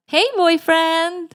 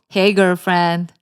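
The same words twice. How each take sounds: First: High, drawn-out put-on girlfriend greeting; sing-song high and slow, playing the girlfriend; girlfriend on the phone. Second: Put-on slow, level greeting in a boyfriend's role; boyfriend on the phone. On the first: Lily greets her boyfriend back, high girlfriend voice. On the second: Ryle greets his girlfriend on a call, acted boyfriend voice.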